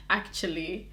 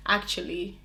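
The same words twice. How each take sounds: The two takes are said the same way.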